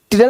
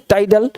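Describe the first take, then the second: First: टिडल with a short 'ti' as in tip; wrong pronunciation. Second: टाइडल with 'tie' as first syllable; correct pronunciation. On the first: Teacher showing students the mistake, wrong pronunciation. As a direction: give टिडल as the misreading, short first vowel. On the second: Teacher correcting the misreading for students, correct pronunciation. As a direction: say टाइडल opening on a long 'eye' vowel. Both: Shown as a demonstration. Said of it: "टिडल नहीं, टाइडल।".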